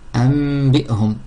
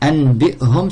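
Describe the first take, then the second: First: The nasal before b is an m. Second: The nasal before b is a clear n.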